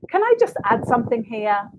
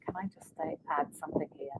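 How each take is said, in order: First: It sounds firm and confident. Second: It sounds hesitant and unsure.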